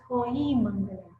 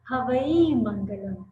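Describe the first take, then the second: First: The first word is said as one syllable, hoi. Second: The first word is said with two syllables, havai. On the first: The speaker calls it right. "but the real pronunciation is Hoi Mangalam" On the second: The speaker calls it wrong. "normally on YouTube we hear Padamam Havai Mangalam"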